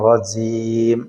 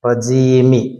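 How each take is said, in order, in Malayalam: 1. വാക്ക് അടഞ്ഞ m ശബ്ദത്തിലാണ് അവസാനിക്കുന്നത്. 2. വാക്ക് ഒരു അധിക i സ്വരാക്ഷരം ചേർത്താണ് അവസാനിക്കുന്നത്. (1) "നിർത്തുമ്പോൾ നമ്മൾ സുക്കൂൻ കൊടുക്കും" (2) "ആ മീമിന് കസ്റ കൊടുത്തിട്ടാണ് ഓതുന്നത്"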